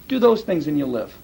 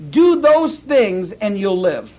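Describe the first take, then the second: First: Said in the usual way. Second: Each word laid down slowly; slow it right down so "Do those things" lands hard; deliberate slow emphasis on "Do"; slow, weighty repeat. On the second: Shown as a demonstration. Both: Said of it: "You want to put yourself under the law?".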